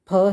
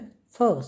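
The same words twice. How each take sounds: First: It is said as an aspirated p stop. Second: It is said as a fricative f sound. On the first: "ये फ तो फ है" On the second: "इसके पैर के नीचे बिंदी आ जाती है ... संघर्षी हो जाता है"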